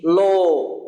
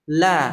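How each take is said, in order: First: The sound is made with pouted, rounded lips. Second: The l is light, made with the tongue tip. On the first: "Tapi bukan dengan dhammah, dengan mencucu begini" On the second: "kalau lamnya tipis, itu kita hanya menggunakan ujung sisi lidah"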